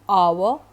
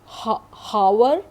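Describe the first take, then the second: First: The word starts with a vowel, no H. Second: The word starts with a clear H sound. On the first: The speaker calls it right. "did you listen to my pronunciation?" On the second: The speaker calls it wrong. "आप इन words को हावर... नहीं कहते हैं"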